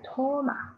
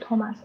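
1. 这个名字结尾没有任何 s 音。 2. 这个名字结尾有能听到的 s 音。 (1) "这个S 不发音啊" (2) "英语是托马斯"

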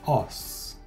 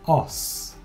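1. Un O ouvert est suivi d'un S prononcé. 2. Un O ouvert est suivi d'un S prononcé.

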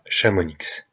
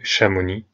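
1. Le mot finit par un son x audible. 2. Le mot finit sur une voyelle, pas de consonne finale. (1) "et pas Chamonix" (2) "les X et Z ne se prononcent pas... et bien entendu Chamonix"

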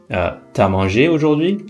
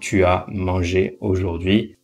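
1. Tu est contracté, prononcé t'as. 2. Tu est prononcé en entier devant as. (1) "très très souvent font la contraction avec le tu" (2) "au lieu de"

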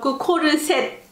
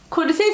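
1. Le mot se termine avec un son T audible. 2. Le mot se termine sans son T.

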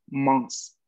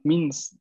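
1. La vocal es nasal. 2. La vocal es una i oral, no nasal. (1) "en realidad la pronunciación va a ser mons, mons, ¿no? Que es una I nasal" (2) "hay quien en algunas regiones de Francia la van a pronunciar con mins"

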